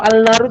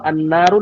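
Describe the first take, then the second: First: The article keeps a clear l sound. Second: The l merges into a doubled n. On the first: The speaker calls it wrong. "kayak nanggung, sulit ya" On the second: The speaker calls it right. "lebih mudah"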